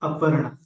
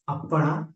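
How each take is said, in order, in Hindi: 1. p की ध्वनि एक है, हिंदी शैली में। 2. p की ध्वनि दोहरी है, पाली शैली में। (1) "संस्कृत हिंदी में बोला बोलेंगे" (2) "अपर्णा बोलते पाली भाषा में, प आधे प को प"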